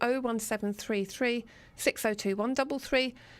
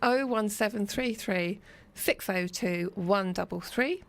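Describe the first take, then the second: First: The number is read quickly. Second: The number is read more slowly.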